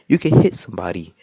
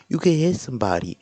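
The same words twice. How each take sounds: First: It is said in a low, put-on voice. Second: It is said in the speaker's ordinary voice.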